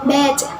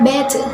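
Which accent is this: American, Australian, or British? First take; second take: British; British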